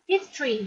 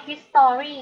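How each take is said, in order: First: "history" run together as HIS-tree; two-syllable "history", ending in "tree"; merged "history". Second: "history" said as his-TOR-ee, with a clear "tor"; "history" with the middle vowel spelled out; full three-syllable "history". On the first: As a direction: drop the middle vowel in "history": his-tree. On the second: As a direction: sound out every syllable of "history": his-to-ree. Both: Shown as a demonstration. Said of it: "คือการอ่านที่ถูกต้อง รวมๆกันไปเลยเนาะ".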